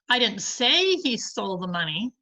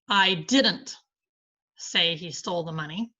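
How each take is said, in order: First: The stress falls on the word say. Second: The stress falls on the word didn't. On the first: The speaker thinks it but never said it. "but I think he did" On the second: The speaker denies saying it at all. "I deny saying it"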